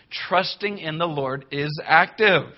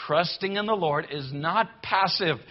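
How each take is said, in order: First: "active" pressed home with a firm falling close; for emphasis. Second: "not passive" hit firmly and deliberately; for emphasis. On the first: Preacher driving the point home to the church, stressing "active". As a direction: land hard on "active". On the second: Preacher repeating his point to the church, stressing "not". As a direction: spell it out with weight on "not". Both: Shown as a demonstration. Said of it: "Let me say it one more time for emphasis".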